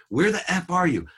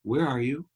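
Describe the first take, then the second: First: High, loud accusing demand; blaming. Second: Concerned, caring question; gently worried parent checking in; compassionate. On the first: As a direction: imitate an angry father yelling down the phone. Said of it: "Blame, right". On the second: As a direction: ask it out of compassion, no blame. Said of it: "out of compassion". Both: Retold or imitated.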